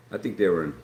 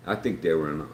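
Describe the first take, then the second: No difference in how they are said.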